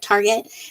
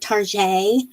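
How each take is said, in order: First: It is said with a plain English pronunciation. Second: It is said with a fancy French-like pronunciation.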